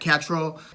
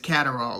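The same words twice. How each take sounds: First: The name is said the English way. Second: The name is said the American way. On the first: "the English pronunciation" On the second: "an American looks at the word and basically says Catterall, like Adderall"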